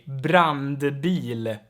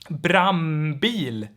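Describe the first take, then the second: First: It has an n and d before the b. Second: It has an m with no d before the b. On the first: "if you pronounce it very clearly" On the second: "the N in front of B and P is turned into an M"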